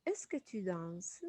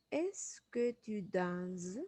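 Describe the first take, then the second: First: Said in the usual way. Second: "Est-ce que tu danses?" said slowly, rising at the end; teacher drawing out "Est-ce que tu danses?"; slow rising question. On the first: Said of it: "on fait la transformation". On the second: Shown as a demonstration. Teacher models the question slowly for students, rising tune. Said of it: "très important de respecter la intonation".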